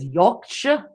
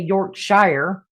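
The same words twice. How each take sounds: First: It is said in a Yorkshire accent. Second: It is said in an American accent.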